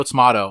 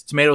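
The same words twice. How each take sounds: First: "tomato" as tuh-MAH-toe; ah pronunciation. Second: "tomato" as tuh-MAY-toe; long "ay" in "tomato"; long-A pronunciation. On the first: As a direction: open "ah" in "tomato". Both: Retold or imitated. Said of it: "BoJack is like".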